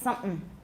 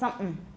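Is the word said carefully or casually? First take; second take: casually; casually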